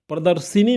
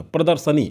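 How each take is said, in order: First: प्रदर्शिनी with "si" before ni; wrong form demonstrated. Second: प्रदर्शनी with "sa" before ni; correct form demonstrated. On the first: Teacher rejects the common form, wrong form demonstrated. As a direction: say प्रदर्शिनी as pra-dar-si-ni. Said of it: "प्रदर्शिनी नहीं होता". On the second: Teacher models it for students, correct form demonstrated. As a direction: say प्रदर्शनी as pra-dar-sa-ni, falling. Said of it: "पढ़ेंगे कैसे इसे?". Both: Shown as a demonstration.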